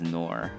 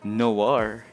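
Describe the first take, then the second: First: The name sounds like 'nor', without a 'w'. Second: The name sounds like 'nwar', with a 'w'. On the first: This is how many people say the name. "I hear people call pronounce it as Nor" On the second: This is how the character says the name. "you're really going for Noir"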